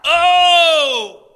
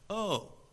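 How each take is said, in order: First: It sounds like a pleading cry. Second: It sounds dumbfounded.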